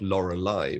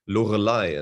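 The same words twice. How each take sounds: First: The R is pronounced soft, English style. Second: The R is pronounced hard, German style. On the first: "and not Lorelei" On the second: "how it sounds in German with the hard R"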